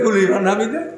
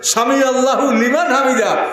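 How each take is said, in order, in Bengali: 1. শুধু 'hu' শোনা যায়, liman-এর সঙ্গে জুড়ে। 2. Allahu শব্দটি পুরোটা বলা হয়।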